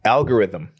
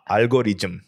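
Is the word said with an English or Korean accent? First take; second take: English; Korean. First: It is said with a native English accent. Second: It is said with a Korean accent. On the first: "they'll make fun of me because I pronounced it correctly" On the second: "I don't even know how to pronounce it in the way the Koreans"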